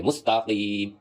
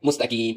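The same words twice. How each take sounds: First: "مستقیم" with a back-of-tongue q, long final vowel; deep qaf. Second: "مستقیم" with a light front k, mustakeem; small kaf. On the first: Teacher corrects to the right form, deep qaf. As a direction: strike a deep ق in drawn-out "مستقیم". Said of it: "اس طرح نہیں پڑھیں گے". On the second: Teacher shows what not to read, small kaf. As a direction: turn the ق of "مستقیم" into plain ک. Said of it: "اس کو چھوٹی کاف". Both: Shown as a demonstration.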